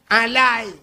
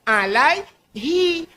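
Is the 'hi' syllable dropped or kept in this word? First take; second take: dropped; kept. First: The middle 'hi' syllable is dropped. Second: The middle 'hi' syllable is clearly pronounced. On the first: The speaker calls it wrong. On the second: The speaker calls it right.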